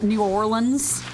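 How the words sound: The name is said fully as New Orleans. Someone from outside the city said it. "I'm from Georgia and I pronounce it New Orleans"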